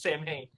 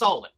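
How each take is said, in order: First: It is said as two syllables, 'sam-hain'. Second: It is said as two syllables, 'sow-in'. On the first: The speaker calls it wrong. "They mispronounce it" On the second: The speaker calls it right. "That's Salwin"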